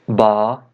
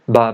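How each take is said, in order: First: The vowel is held for a long time. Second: The vowel is held only briefly.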